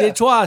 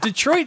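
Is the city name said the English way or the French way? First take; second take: French; English. First: It is said with a French-style pronunciation. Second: It is said with ordinary English pronunciation. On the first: The city sounds refined and elegant. "Détroit sounds well, see, like you might have a nice, lovely a cluster of grapes" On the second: The city sounds rough and dangerous. "Detroit sounds like you might get shanked up in an alley"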